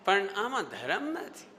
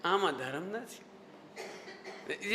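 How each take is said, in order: First: Slow, drawn-out qualification; Swami ji. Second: Low, soft, drawn-out gentle correction; Todarmal. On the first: Teacher showing the swami's tone to students, slow qualification. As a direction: imitate a preacher gently adding the catch. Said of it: "ये, ये, ये, ये tone". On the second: Teacher showing a scholar's tone after praise, measured caution. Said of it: "ये tone". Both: Retold or imitated.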